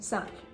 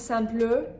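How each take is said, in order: First: The final E is silent, ending on the consonant. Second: The final E is sounded as a schwa. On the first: The speaker calls it right. "you're saying simple" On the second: The speaker calls it wrong. "You're not saying simple"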